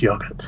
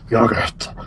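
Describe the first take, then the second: First: It is said in the speaker's neutral accent. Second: It is said in an imitated Texas accent. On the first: "the correct way of pronouncing yogurt" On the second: "trying to do an impression of of your poor accent, your Texas accent"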